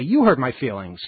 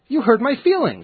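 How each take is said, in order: First: The word you carries strong stress. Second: The word you carries no strong stress. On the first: "you would emphasize the you" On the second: "the way you deliver the line, based on the conversation that came beforehand"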